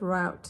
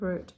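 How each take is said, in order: First: It is said with an American pronunciation. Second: It is said with a British pronunciation.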